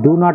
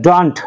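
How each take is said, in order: First: It is said as two separate full words. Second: It is said as one contracted word. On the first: "ডু নট এর ডন্ট" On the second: "ডন্ট যেটা বলা হয় ডন্ট"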